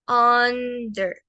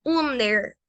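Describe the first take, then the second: First: "under." with an open English "a" vowel, as in "ander"; correct English under. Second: "under," read letter by letter, as a wrong take; wrong pronunciation. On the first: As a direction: model the right "under." with some air. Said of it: "no, es". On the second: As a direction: show the second mistake on "under,". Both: Shown as a demonstration.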